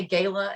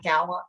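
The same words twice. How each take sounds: First: "gala" said as GAY-luh; long-A pronunciation. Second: "gala" said as GAL-uh; short-A pronunciation. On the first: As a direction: say "gala" with the vowel of "day". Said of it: "agreeing that we say gala". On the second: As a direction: say "gala" with the vowel of "cat". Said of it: "and not gala". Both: Shown as a demonstration.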